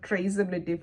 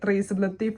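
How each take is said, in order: First: It is said in the speaker's usual accent. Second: It is said in an unfamiliar foreign accent. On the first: "അങ്ങനെ ഒരു ആക്സെൻറ്റിലാണ് നമ്മളത്" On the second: "പിന്നെ അവർ ചോദിക്കുക"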